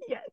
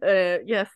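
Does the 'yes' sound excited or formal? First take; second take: excited; formal. First: The word is shouted with wild excitement. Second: The word is said in a calm, polite voice. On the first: The speaker is privately thrilled. "absolutely psyched and screaming behind the phone" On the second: The speaker is acting professional on the call. "and then it's like professional"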